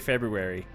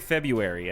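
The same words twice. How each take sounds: First: The first R sound is clearly pronounced. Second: The first R sound is left out. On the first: "I actually do pronounce the R in February" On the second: "I don't say February"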